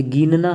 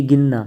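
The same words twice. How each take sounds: First: गिनना with a stretched "geen"; long ee. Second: गिनना with a quick "gin"; short i. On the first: Teacher showing the error, long ee in गिनना. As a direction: say गिनना as "geenna". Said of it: "ये गिनना है". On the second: Teacher giving the correct form, short i in गिनना. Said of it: "ये गिनना". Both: Shown as a demonstration.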